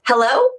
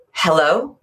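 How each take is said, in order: First: High, tense hello; top-of-breath hello. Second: Out-breath hello. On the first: Coach contrasting wrong with right, high anxious hello. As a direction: pitch it up at the top of your range. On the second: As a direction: drop it down and breathe out on it. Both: Shown as a demonstration. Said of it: "now try it back and forth".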